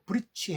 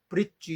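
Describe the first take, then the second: First: The final consonant is a voiceless ch sound. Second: The final consonant is a voiced j sound. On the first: "브릿지 이렇게 말하는 게 아니고 브릿취 해봐라" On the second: "같은 입모양으로 유성 자음으로 하게 되면"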